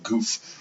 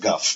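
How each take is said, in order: First: The vowel is a long 'oo' sound. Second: The vowel is a short 'uh' sound. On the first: This is how the voice actor said it. The speaker calls it wrong. "he pronounced it way more like Goof" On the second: This is the actual pronunciation. The speaker calls it right. "rather than Guff"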